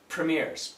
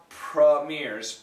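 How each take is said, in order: First: The first vowel is a short 'ih' sound. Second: The first vowel is a short 'uh' sound. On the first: "It's more of a more of this I sound" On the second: "the perfect schwa"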